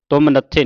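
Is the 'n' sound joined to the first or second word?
second. The n sound starts the second word. The speaker calls it wrong. "ਤੁਮ ਨੱਥੇ ਨਹੀਂ ਪੜਨਾ"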